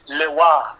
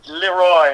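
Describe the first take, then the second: First: The name is said with a French pronunciation. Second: The name is said with an English pronunciation. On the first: This is the strictly correct original form. "really want to get technical and, and French with it" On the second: This is how the band prefers it said. "we like to pronounce it Leroy"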